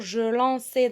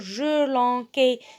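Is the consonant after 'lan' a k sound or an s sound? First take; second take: s sound; k sound. First: The consonant after 'lan' is a soft s. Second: The consonant after 'lan' is a hard k. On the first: The speaker calls it right. "Je dois dire je lançais" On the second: The speaker calls it wrong. "le C devant A, ça se prononce K"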